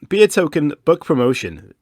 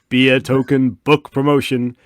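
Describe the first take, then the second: First: It is said in a plain speaking voice. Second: It is said in a dramatic movie-trailer voice.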